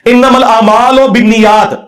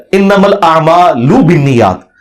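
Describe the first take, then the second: First: "الاعمال" ending in a long "o", aamaal-o; majhool vowel. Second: "الاعمال" ending in a pure "u", a'maalu; maroof vowel. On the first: Teacher showing how the scholars misread the hadith, majhool "o" ending on "الاعمال". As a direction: recite slowly, saying "الاعمال" as a'maalo with an o. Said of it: "یہ لفظ ہی غلط ہے". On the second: Teacher correcting the hadith reading, maroof "u" ending on "الاعمال". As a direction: recite slowly, saying "الاعمال" as a'maalu with a clear oo. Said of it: "اعمال لو پڑھتے ہیں". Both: Shown as a demonstration.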